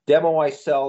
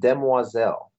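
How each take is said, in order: First: It is said like the English words demo I sell. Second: It is said with a French pronunciation. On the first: It plays on a pun. "That is the pun reference" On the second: It is the real French word. "the actual French pronunciation"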